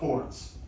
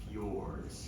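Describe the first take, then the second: First: It sounds like 'fords', with no 'y' sound. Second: It has a 'y' sound after the 'f'. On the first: The speaker calls it wrong. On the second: The speaker calls it right.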